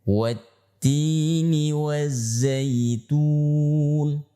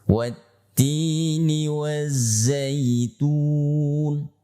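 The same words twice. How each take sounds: Both takes have the same delivery.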